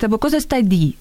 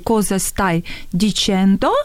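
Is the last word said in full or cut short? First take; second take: cut short; full. First: The last word is cut short. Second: The last word is said in full. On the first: This is the Roman dialect form. "римский диалект" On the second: This is the standard Italian form. "по-итальянски"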